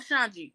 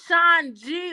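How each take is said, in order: First: The name is said quickly as one word. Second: The name is said slowly as two separate parts.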